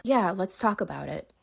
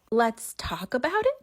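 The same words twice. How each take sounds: First: Said in the usual way. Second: Slow, rising disbelief on it; "Let's talk about it?" spelled out slowly, voice climbing in outrage; incredulous echo. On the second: Real, not acted. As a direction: repeat his words like you can't believe them. Echoing his words in disbelief.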